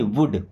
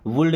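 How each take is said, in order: First: The L sound is left out of the word. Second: The L sound is pronounced in the word. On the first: The speaker calls it right. "एल silent है" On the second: The speaker calls it wrong. "एल silent है यहाँ पे ना, ... वुड नहीं"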